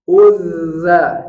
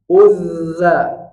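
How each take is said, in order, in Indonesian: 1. Konsonan tengahnya dibaca dua kali lipat. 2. Konsonan tengahnya dibaca dua kali lipat.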